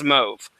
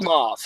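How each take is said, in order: First: "mauve" with a long O, like "mohv"; accepted pronunciation. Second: "mauve" drawn out as it is spelled; spelling pronunciation. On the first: Showing how the color is pronounced, "mauve" as "mohv". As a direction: say "mauve" to rhyme with "stove". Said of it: "apparently it's pronounced mauve". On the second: Showing how the color is spelled, "mauve" read by the letters. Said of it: "it's spelled mauve". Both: Shown as a demonstration.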